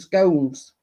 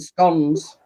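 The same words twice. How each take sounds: First: The word has the other, non-Yorkshire pronunciation. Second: The word has its local Yorkshire pronunciation. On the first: This is how people elsewhere say it. The speaker calls it wrong. "we don't call them scones" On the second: This is how people here say it. The speaker calls it right. "here in Yorkshire we call them scones"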